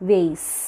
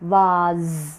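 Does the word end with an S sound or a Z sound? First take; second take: S; Z. First: The word ends with an S sound. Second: The word ends with a Z sound. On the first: "And American it's S sound" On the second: "In British it is vase. Z sound"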